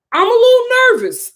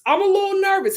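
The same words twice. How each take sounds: First: Higher and louder nervous exclamation; mock alarmed. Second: Said in the usual way. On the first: Real, not acted. Vlogger mock panicking to viewers about fines, loud and high. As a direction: blurt it out in alarm.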